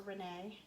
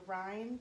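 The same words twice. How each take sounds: First: "Renee" said reh-NAY, stress on the second syllable; "Renee" as a hesitant two-syllable reh-NAY; Renee pronunciation. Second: "Rhine" said like the river, one syllable RYNE; "Rhine" rhymes with fine, unsure; Rhine pronunciation. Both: Shown as a demonstration. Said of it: "I don't know how you say it".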